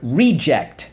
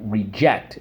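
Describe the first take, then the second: First: The stress is on the first syllable. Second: The stress is on the second syllable. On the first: It is a thing that is no good. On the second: It is an action of turning something down.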